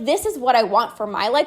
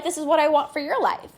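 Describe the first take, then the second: First: Contrastive weight on "my" before "life"; stress on MY. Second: "your" lifted, then falling on "life"; stress on YOUR. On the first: Coach telling listeners what she wants, stress on MY. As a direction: lean on "my", setting up a contrast. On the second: Coach wishing the same for her listeners, stress on YOUR. Turns the wish onto listeners. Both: Real, not acted.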